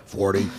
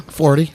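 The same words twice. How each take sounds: First: Much lower and softer; deep, quiet delivery. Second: Said in the usual way. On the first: Shown as a demonstration. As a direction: drop the pitch right down. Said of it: "A little lower". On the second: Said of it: "A little lower, I think".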